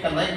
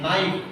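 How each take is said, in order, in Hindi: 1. यह शब्द 'n' से पहले 'k' की आवाज़ से शुरू होता है। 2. यह शब्द 'n' की आवाज़ से शुरू होता है, 'k' से नहीं। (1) "कनाइफ नहीं बोलते" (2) "इसको नाइफ बोलते हैं"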